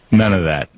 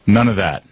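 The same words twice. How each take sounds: The two takes are said the same way.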